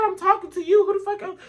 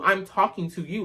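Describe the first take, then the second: First: Incredulous outburst. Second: Said in the usual way. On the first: Retold or imitated. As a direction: fling it back at him, shocked he even asked. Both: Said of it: "I said".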